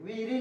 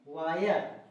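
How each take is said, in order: First: The first vowel sounds like 'ee', ending in 'ee'. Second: The first vowel sounds like 'eye', ending in 'er'. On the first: The speaker calls it wrong. "वीरी नहीं पढ़ेंगे" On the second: The speaker calls it right. "इसको पे क्या पढ़ेंगे?"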